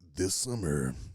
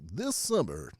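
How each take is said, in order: First: Said in a deep, dramatic movie-trailer voice. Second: Said in a lighter, cheerful, jovial voice. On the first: "The movie voice" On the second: "the Disney one and it's a little bit more jovial"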